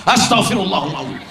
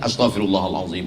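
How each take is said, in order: First: It is said in an angry, loud voice. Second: It is said in a calm, ordinary voice. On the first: The speaker calls it wrong. "dengan marah-marah" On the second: The speaker calls it right. "zikir biasa aja"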